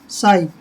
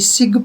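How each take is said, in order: First: The word ends on a vowel sound. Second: The word ends with a g sound. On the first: The speaker calls it right. "ये शाई होता है" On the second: The speaker calls it wrong. "तो ये सिग नहीं होता"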